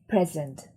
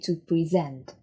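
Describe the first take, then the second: First: The stress is on the first syllable. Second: The stress is on the second syllable.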